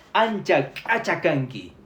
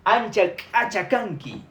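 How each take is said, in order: First: "ancha" then "achacanqui" split apart with a pause between; word by word. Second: "Ancha, achacanqui" said slowly and carefully, each sound clear; "Ancha, achacanqui" spoken slowly as one careful phrase; slow pronunciation demo. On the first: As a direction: break "ancha, achacanqui" into its two words. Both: Shown as a demonstration. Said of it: "¿Cómo se pronuncia el B?".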